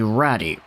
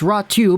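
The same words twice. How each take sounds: First: The y is sounded like an English y. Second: The y is sounded like a u vowel. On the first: The speaker calls it wrong. "try not to pronounce it like" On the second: The speaker calls it right. "the Y in Finnish is actually pronounced like a U"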